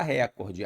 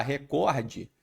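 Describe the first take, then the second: First: "recorde" com força no RE: RÉ-cor-de; silabada, tônica no RE. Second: "recorde" com força em COR: re-COR-de; tônica no COR. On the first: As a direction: diga "recorde" batendo na primeira sílaba. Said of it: "aí isso é uma silabada". ("recorde" proparoxítono, tônica deslocada para RE) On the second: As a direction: diga "recorde" batendo na penúltima sílaba. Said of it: "eu mudei a sílaba tônica". ("recorde" paroxítono, tônica em COR) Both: Shown as a demonstration.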